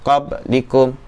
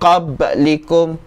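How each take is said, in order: First: The b is closed with no bounce. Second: The b is released with a slight bounce. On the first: The speaker calls it wrong. "dia tak boleh qablikum. Itu tak nak" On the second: The speaker calls it right. "Kita perlu dibaca qab qab qablikum"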